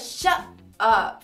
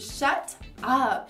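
First: The T is cut off as a glottal stop. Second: The T is released clearly as a stop. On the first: "você interrompe o som na hora de fazer o T" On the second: "Primeira pronúncia é fazendo o som do T, claramente"

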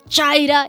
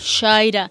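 First: The first sound is strongly marked and heavy. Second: The first sound is soft and light. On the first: The speaker calls it wrong. "hay gente que lo dice muy marcado como Shaira" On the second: The speaker calls it right. "no saben pronunciarlo yo, Shaira"

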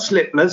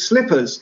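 First: The word is slurred like a small child's. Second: The word is pronounced clearly and fully. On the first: The speaker calls it wrong. "It's not slippers" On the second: The speaker calls it right. "it's slippers"

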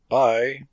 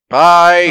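First: It is said with low energy. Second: It is said with more energy.

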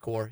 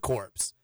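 First: The word ends with no 'ps' sound. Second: The word ends with a 'ps' sound. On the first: The speaker calls it right. "it's pronounced K-O-R" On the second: The speaker calls it wrong. "he was saying the word incorrectly"

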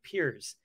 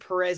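First: The name is said in one syllable, like Piers. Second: The name is said with two syllables, like Perez. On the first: This is how the name is said in Portuguese. The speaker calls it right. "it's actually like Pyrrhus, like Piers" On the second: This is how the name was said as a child. The speaker calls it wrong. "I said Perez in kindergarten"

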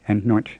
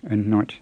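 Both takes have the same delivery.

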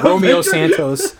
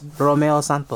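First: The name is said with an English pronunciation. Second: The name is said with a Spanish pronunciation. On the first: The speaker calls it wrong. "everyone going [name]. That's the English" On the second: The speaker calls it right. "No, it's Romeo Santos"

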